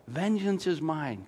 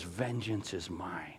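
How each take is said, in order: First: Said in the usual way. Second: Vengeance is mine dropped much softer and slow; solemn hushed verse; hushed solemn quote. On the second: Shown as a demonstration. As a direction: let God's words fall quiet and weighty. God's words, hushed.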